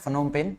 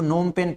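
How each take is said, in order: First: The name begins with an F sound. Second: The name begins with an N sound. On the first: The speaker calls it wrong. "फनोम पेन नहीं पढ़ना है" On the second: The speaker calls it right. "इसको नोम पेन पढ़ना है"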